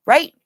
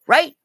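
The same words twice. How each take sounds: The two takes are said the same way.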